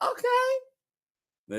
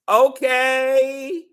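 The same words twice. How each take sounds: First: It is said in a higher-pitched voice. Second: It is drawn out at normal pitch.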